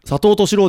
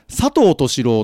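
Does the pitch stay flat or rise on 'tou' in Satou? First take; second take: rise; flat. First: The pitch rises on the 'tou' part. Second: The pitch stays flat on the 'tou' part. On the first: "確かに違うな" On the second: "オープニングのタイトルコールでは普通に佐藤敏郎のと発音されている"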